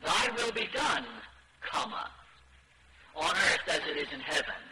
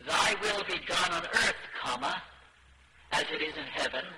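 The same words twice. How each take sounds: First: "done" punched and falling, then a pause; "Thy will be done" set off firmly, and "on earth as it is in heaven" follows as its own phrase; comma after done. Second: "Thy will be done on earth" runs on as one phrase, break after "earth"; comma after earth. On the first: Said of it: "the change should be made". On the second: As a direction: pause and rise on "earth", then "comma, as it is in heaven". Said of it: "instead of". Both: Shown as a demonstration.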